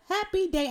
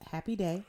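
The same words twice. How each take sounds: First: It is said with lively, high energy. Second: It is said flatly, with low energy.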